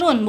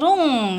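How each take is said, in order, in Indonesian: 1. Kata itu berakhir dengan bunyi n yang jelas. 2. Kata itu berakhir dengan bunyi sengau ng. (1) "dibaca run" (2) "bukan rung"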